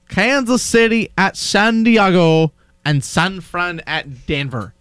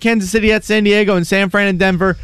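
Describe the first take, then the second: First: It is read out slowly. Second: It is read out very fast.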